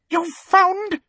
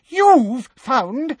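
First: Much higher, shrill disbelieving query; shrill question. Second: Much higher and louder, outraged shriek; louder shrill repeat. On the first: Umbridge shocked that Dumbledore found a teacher, shrill. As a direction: squeak the words in disbelief. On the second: Umbridge repeating in outrage, shrill and loud. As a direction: push it up into indignant outrage. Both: Acted. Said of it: "said Umbridge shrilly".

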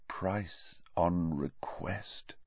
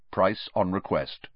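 First: Slow, awed near-whisper; hushed echo. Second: Said in the usual way. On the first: A narrator's reading. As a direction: echo it slowly under your breath. Same line echoed in hushed awe.

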